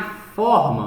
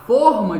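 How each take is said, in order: First: "forma" with an open "o", as in FÓR-ma; stressed open "ó" in "forma", the shape word. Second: "forma" with a closed "o", as in FÔR-ma; stressed closed "ô" in "forma", the mould word. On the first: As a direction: say "forma" with a wide, open first vowel, like "ó". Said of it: "o formato". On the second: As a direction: say "forma" with a tight, closed first vowel, like "ô". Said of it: "ou seja, o molde de gelo". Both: Shown as a demonstration.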